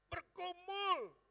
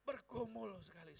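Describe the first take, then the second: First: BERGUMUL shouted high and very slowly; drawn-out anguished shout. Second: Said in the usual way. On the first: Retold or imitated. Preacher recalling his struggle with God, long anguished shout. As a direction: stretch out BERGUMUL in a loud, high cry.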